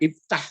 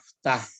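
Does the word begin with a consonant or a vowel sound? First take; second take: vowel; consonant. First: The word begins with an 'i' vowel sound. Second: The word begins directly with the 'f' consonant. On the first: "sebenarnya iftah tuh" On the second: "Cuma hamzahnya itu enggak dibaca"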